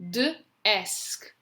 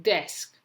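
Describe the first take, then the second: First: D split off from "esk", raised pitch; sounding out. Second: Said in the usual way. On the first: Shown as a demonstration. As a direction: say D, pause, esk. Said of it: "say the letters as you're writing". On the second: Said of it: "you're going to read the word".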